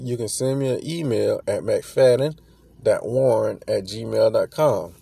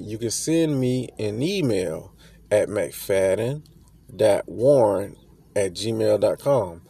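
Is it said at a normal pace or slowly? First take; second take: normal; slowly. First: It is said at a normal pace. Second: It is said more slowly.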